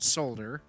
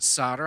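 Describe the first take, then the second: First: The word is said with an L sound. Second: The word is said without an L sound. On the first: This is how someone else says it, a European habit. "he pronounces the L, which um, is a very Euro thing to do" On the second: This is how the speaker says it. "I do call it solder"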